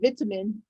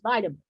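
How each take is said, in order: First: It is said with a British pronunciation. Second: It is said with a non-British pronunciation. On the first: "the British English is vitamin" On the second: "everything outside the Queen quote the Queen's English is vitamin"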